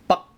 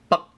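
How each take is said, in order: No difference in how they are said.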